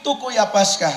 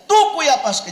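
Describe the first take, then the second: First: Said in the usual way. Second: Tucuy punched higher and louder; all taken, driven home from the pulpit; stressed tucuy. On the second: Retold or imitated. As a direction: hit the word tucuy hard, preaching. Repeats loss with emphasis.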